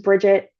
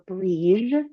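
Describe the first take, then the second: First: The name is said the usual English way. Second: The name is said the Gaelic way.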